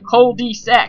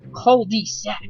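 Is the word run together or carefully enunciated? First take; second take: run together; enunciated. First: The syllables are run together casually. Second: Each syllable is enunciated separately and carefully.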